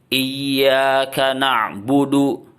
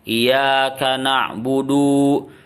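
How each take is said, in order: First: The 'y' is doubled and the final 'du' is short. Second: The 'y' is light and the final 'du' is long. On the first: The speaker calls it right. "iyanya itu bertasdid... du-nya pendek" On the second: The speaker calls it wrong. "Jadi iyanya kurang ditekan, na'budunya malah panjang"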